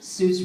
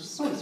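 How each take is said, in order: First: The vowel rhymes with goose. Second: The vowel rhymes with voice. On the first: This is the popular pronunciation of the name. The speaker calls it wrong. "Seuss rhymed with goose" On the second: This is the original pronunciation of the name. The speaker calls it right. "It was pronounced Seuss, which rhymes with a voice"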